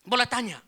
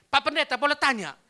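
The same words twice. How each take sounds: First: Put-on short, loud Manado-accented question; imitated Manado accent, high and loud. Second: Put-on loud, high question with Manado accent; retold Manado-accented question. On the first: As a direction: ask it in a Manado lilt. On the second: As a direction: ask the pastor loudly in Manado lilt. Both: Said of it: "Tapi dia pakai logat Manado".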